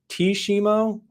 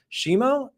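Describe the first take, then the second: First: The name starts with a T sound. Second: The name starts without a T sound. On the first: "Is it T Shimo?" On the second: "is the T silent?"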